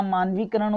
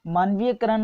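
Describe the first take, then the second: First: मानवीकरण with "vee" straight into "karan". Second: मानवीयकरण with "ya" before "karan"; added ya. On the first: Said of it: "मानवीकरण होता है". (मानवीकरण धीरे, बिना "य") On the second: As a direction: say मानवीयकरण as maan-vee-YA-karan. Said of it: "मानवीयकरण नहीं होता". (मानवीयकरण में "य" बोलें) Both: Shown as a demonstration.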